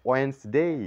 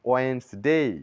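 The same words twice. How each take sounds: The two takes are said the same way.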